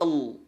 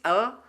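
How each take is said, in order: First: The L is thick, tongue back raised. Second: The L is thin, tongue back not raised. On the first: "kalau lam tebal" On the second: "kalau lam tipis"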